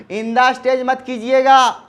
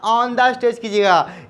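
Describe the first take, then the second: First: Says "In the stage", the wrong form; wrong preposition. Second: Says "on the stage" clearly and slowly; correct preposition. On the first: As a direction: model the mistaken "In the stage" slowly. (गलत रूप "In the stage") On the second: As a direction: model the right "on the stage". (सही रूप "on the stage") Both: Shown as a demonstration.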